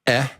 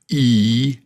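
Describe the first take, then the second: First: It is a short vowel, as in egg. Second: It is a long vowel, as in be. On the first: "so the short is e" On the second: "and the long is e"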